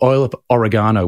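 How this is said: Oregano is said the Australian way.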